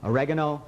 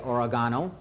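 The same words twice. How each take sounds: First: It is pronounced the Spanish way. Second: It is pronounced the English way. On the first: "oregano is the Spanish" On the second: "which is proper, because that is the English pronunciation"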